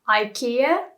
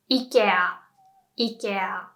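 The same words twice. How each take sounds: First: "ikea" as eye-KEE-uh, rising at the end; English pronunciation. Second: "ikea" as ee-keh-ah, falling; Japanese pronunciation. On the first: Teacher quoting how many people say it, English pronunciation. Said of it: "pronounce it like". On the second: Teacher repeating the Japanese version for learners, clear demonstration. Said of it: "pronounce it more like the". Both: Shown as a demonstration.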